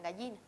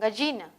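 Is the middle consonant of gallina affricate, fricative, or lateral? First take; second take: lateral; affricate. First: The middle consonant is a palatal lateral. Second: The middle consonant is an affricate. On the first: "es con esta lateral palatal" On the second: "un sonido africado"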